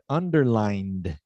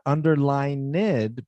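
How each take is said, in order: First: The -ed ending adds no extra syllable. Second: The -ed ending is said as an extra syllable. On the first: The speaker calls it right. "but underlined" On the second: The speaker calls it wrong. "we don't give it an extra syllable. So not underlined"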